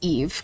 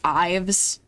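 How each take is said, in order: First: The name is said as Eve. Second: The name is said as Ives. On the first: The speaker calls it right. "that's not how you pronounce it. It's Eve" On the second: The speaker calls it wrong. "I used to think Eve's name was pronounced Ives"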